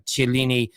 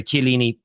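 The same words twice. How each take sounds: First: "Chiellini" begun with a "ch" sound; soft CH pronunciation. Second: "Chiellini" begun with a hard "k"; hard K pronunciation. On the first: Host reading a viewer's comment, "Chiellini" with a CH start. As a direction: say "Chiellini" as chil-LEE-nee, English CH. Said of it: "sorry, Chiellini". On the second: Host correcting himself on air, "Chiellini" with a K start. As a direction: say "Chiellini" as kee-LEE-nee, K not CH. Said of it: "uh, sorry, Chiellini". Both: Real, not acted.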